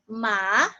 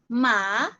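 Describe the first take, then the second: Both takes have the same delivery.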